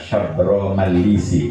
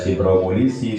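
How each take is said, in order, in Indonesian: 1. Nama itu dimulai dengan suku kata sa. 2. Nama itu dimulai dengan suku kata si. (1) "yang betul itu" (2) "kadang-kadang ada yang membaca"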